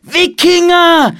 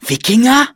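First: Drawn-out, high, loud warning call; shouted alarm. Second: High, loud questioning cry, rising at the end; startled question. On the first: Boy warns the monastery, shouted alarm. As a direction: shout the alarm slowly and high, falling at the end. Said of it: "rief Philipp". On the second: Child spots ships from the treehouse, startled question. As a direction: ask it in high-pitched alarm. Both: A narrator's reading.

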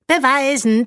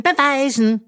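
First: Much higher, louder singsong taunt; taunting call. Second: Much higher, louder repeated taunt; taunting call. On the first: Princess calling after fleeing Bö, taunting. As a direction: call after her teasingly. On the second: Princess jeering at fleeing Bö, taunting. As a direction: jeer after her. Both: A narrator's reading. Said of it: "rief ihr Magnesia hinterher".

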